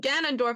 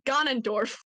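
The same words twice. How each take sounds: First: The first A has its usual vowel. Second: The first A is pronounced like ah. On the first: The speaker calls it right. "like I'm supposed to say Ganondorf" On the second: The speaker calls it wrong. "sometimes I say it like ah"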